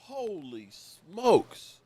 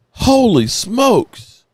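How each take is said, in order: First: Much softer, slow, breathed out in awe; stunned hush. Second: Awed exclamation. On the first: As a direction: let it sink in quietly, very slowly. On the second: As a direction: burst out in amazement, drawn out. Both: Real, not acted. Stunned by the news.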